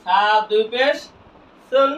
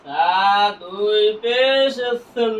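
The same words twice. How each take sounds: First: Said in the usual way. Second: Very slow, vowels held long; slow recitation drill for learners; drawn-out spelling. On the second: Shown as a demonstration. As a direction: stretch পেশ before landing on সুন. Same spelling repeated drawn out.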